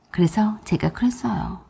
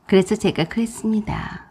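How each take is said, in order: First: Whispered. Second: Said in the usual way. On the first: A narrator's reading. Narrator lead-in, whispered.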